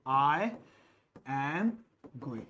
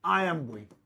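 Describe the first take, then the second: First: Slow, each word set apart by a pause. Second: Said in the usual way. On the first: Shown as a demonstration. Teacher to students, dictates slowly word by word. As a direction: spell out "I", "am", "going" one at a time with gaps. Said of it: "I am going (said normally first)". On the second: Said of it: "I / am / going (slowed right after)".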